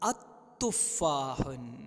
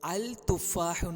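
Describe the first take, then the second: First: No 'l'; the t is doubled instead. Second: A clear 'l' is said before the t. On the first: The speaker calls it right. "അവിടെ വായിക്കുന്നത് അത്തുഫാഹുൻ" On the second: The speaker calls it wrong. "വായിക്കുന്നത് അൽ തുഫാഹുൻ എന്നല്ല"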